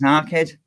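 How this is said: It is said in a Scouse accent. The speaker calls it right. "because I'm Scouse, it's our kid"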